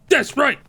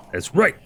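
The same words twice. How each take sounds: First: High-pitched mock taunt on That's; gloating squeak at the enemy; high taunting squeal. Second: Said in the usual way.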